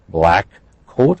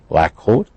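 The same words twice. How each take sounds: First: Both k sounds are pronounced separately. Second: The two k sounds blend into one.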